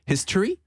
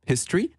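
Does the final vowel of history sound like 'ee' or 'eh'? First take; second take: ee; ee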